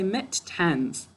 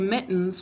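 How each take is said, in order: First: The word is split into two separate syllables. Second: The word flows smoothly with no syllable break. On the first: This is a spelling aid, not normal speech. "To spell it, we say mit-tens" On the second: This is how it sounds in normal speech. "we say mittens when we're talking"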